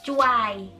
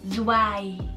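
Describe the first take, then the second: First: The word begins with a ch sound. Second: The word begins with a plain z sound. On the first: "ataupun cuai" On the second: "dibacanya bukan zwei"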